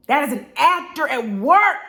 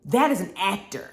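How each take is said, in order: First: "work" pushed higher and louder, the whole line lifted; louder, higher take that punches "work"; emphatic restatement. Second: Said in the usual way. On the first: Shown as a demonstration. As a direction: land hard on "work" to drive the point home.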